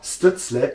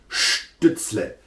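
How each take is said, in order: First: The name is pronounced the English way. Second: The name is pronounced the German way. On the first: The speaker calls it wrong. "it's not Stützle ... English speaking people always do that wrong" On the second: The speaker calls it right. "it's Stützle. Because in German"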